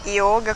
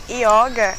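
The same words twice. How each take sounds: First: Yoga said with a rounded, closed O; Sanskrit yoga, closed O. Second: Yoga said with an open O; Brazilianised yoga, open O. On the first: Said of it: "Yoga com Y se fala yoga". (iôga do sânscrito, "ô" fechado) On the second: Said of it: "Yoga é abrasileirado". (ióga abrasileirado, "ó" aberto) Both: Shown as a demonstration.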